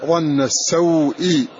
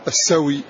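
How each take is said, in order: First: "السوء" slowly as as-saw-i, glottal stop before i; hamza pronounced. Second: "السوي" as as-sa-wi, no glottal stop; hamza dropped. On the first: Teacher showing the original phrase, "السوء" slow with hamza pronounced. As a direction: draw out "السوء", sounding the hamza. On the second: Teacher deleting the hamza, "السوي" run together as as-sawi. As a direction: let w glide into i in "السوي". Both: Shown as a demonstration. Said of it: "فتقول السوي".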